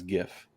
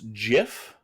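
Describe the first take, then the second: First: It begins with a hard G sound. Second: It begins with a soft J-like sound. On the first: The speaker calls it right. "correct people, superior people, pronounce it as GIF" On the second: The speaker calls it wrong. "some people pronounce GIF. Um, by some people, I mean wrong people"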